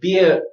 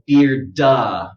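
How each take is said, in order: First: The word is cut off with no final sound. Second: An extra vowel is added after the final d. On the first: "is to go beer and then it just dies" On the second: "don't overdo it. Don't go beard-da"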